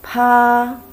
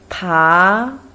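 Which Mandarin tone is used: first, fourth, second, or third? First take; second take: first; second. First: It is said with the first tone. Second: It is said with the second tone. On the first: "first tone" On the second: "Second tone"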